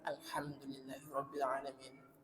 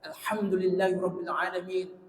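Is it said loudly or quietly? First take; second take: quietly; loudly. First: It is said quietly, under the breath. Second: It is shouted loudly.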